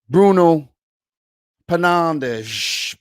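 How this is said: The name is said with a Portuguese accent. The speaker calls it right. "let's say it the way they say it"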